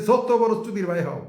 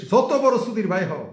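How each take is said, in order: Both takes have the same delivery.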